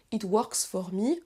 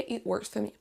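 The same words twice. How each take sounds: First: Slow, full 'or' in WORKS and FOR; over-literal 'it wORks fOR me'; unreduced wrong pronunciation. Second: FOR reduced to 'fuh', WORKS as 'wurks'; natural linked model with weak FOR; correct reduced form. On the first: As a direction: pronounce every O and R in WORKS FOR, rising on ME. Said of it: "on dit pas". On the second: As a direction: say 'it wurks fuh me'. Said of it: "c'est réduit". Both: Shown as a demonstration.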